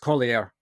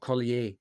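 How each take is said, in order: First: The name is pronounced in a plain English way. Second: The name is pronounced in a French-sounding way. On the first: The speaker calls it right. "don't speak it like it's French. It's, you know, it's Collier or something like that" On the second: The speaker calls it wrong. "not Collier, as I have been calling him"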